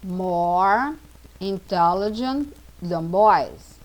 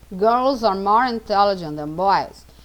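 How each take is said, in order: First: Put-on slow, word by word, building up "More intelligent than boys"; slow teaching model. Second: Said in the usual way. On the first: Shown as a demonstration. Teacher slowly models the comparative to students, slow and careful. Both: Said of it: "girls intelligent, uma palavra grande".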